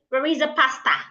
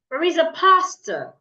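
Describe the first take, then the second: First: The last word ends in a full, open vowel. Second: The last word ends in a weak, lazy vowel. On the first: The speaker calls it wrong. "you shouldn't say" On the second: The speaker calls it right. "It is"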